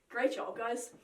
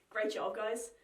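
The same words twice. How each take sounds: Both takes have the same delivery.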